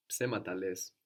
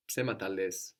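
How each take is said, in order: Both takes have the same delivery.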